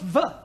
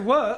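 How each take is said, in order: First: The word begins with a buzzing V sound. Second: The word begins with a rounded W sound. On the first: The speaker calls it wrong. "and not the" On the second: The speaker calls it right. "you must learn to say were"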